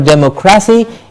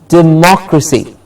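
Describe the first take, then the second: First: The stress is not on the second syllable. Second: The stress is on the second syllable. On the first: The speaker calls it wrong. "It's not a democracy" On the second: The speaker calls it right. "The mock gets the stress"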